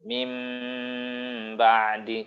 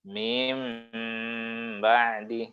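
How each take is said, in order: First: The vowel before the nasal sound is kept short. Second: The vowel before the nasal sound is drawn out. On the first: The speaker calls it right. "Ini harusnya tidak boleh dipanjangkan, ya. Langsung masuk" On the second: The speaker calls it wrong. "kan ada juga yang bacanya gitu ya"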